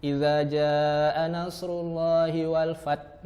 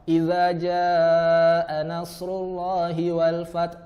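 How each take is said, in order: First: Slow recitation with the final h of "fath" dropped, ending on a bare t; demonstrating the mistake of deleting the letter h; wrong recitation. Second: Slow chanted recitation with the final h of "fath" clearly breathed out; correct recitation. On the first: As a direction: recite it slowly but swallow the h at the end of "fath". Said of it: "menghilangkan huruf H-nya". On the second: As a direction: recite it slowly, letting the h at the end of "fath" be heard. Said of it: "seharusnya terdengar bunyi". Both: Shown as a demonstration.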